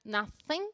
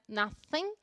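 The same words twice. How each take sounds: First: The 'th' is made with the tongue between teeth. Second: The 'th' is made with the tongue between teeth.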